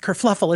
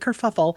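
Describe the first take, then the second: First: An extra L sound follows the first F. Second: No extra L sound follows the first F. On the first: The speaker calls it wrong. "Unlike Candace would say it is kerfluffle" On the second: The speaker calls it right. "It's actually kerfuffle"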